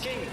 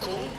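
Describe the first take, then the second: First: The vowel sounds like 'ee'. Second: The vowel sounds like 'oo'. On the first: This is how the rider himself says it. The speaker calls it right. "He says himself, it's pronounced King" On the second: This is how English speakers tend to read it. The speaker calls it wrong. "as English speakers, you are drawn to saying Kung"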